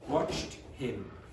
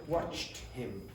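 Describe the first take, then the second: First: The h of him is clearly pronounced. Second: The same.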